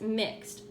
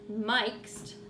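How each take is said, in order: First: The i vowel is short, as in mix. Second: The i vowel is long, like its letter name. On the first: The speaker calls it right. "It still says mixed" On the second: The speaker calls it wrong. "that E ought to make the I say its name"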